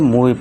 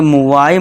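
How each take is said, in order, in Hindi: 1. शब्द 'ee' ध्वनि से खत्म होता है। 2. शब्द 'eye' ध्वनि से खत्म होता है। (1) "इसे मूवी पढ़ेंगे" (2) "इसे मुवाई मत पढ़ देना"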